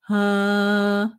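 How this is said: A dark, slightly nasal vowel with a low larynx. The speaker calls it right. "le larynx un tout petit peu bas et le son qui est un peu"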